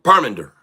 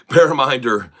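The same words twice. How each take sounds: First: "Parminder" as PAR-min-der, no extra syllable; "Parminder" fixed, stress on PAR; corrected name. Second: "Paraminder" with an extra "a" after "Par"; misreading "Paraminder" in three-plus beats; wrong name. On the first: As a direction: say "Parminder" cleanly in three beats. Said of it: "not para". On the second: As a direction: say "Paraminder" as pa-ra-minder. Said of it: "Parminder, not para". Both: Real, not acted.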